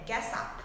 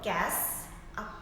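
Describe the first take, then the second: First: The two words are linked together. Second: The two words are said separately. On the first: "นักเรียนสามารถควบคำไปได้เลยค่ะ" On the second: "คำศัพท์มันจะเขียนว่า"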